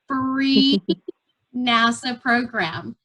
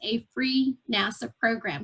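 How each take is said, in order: First: The phrase is said very slowly. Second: The phrase is said at a normal pace.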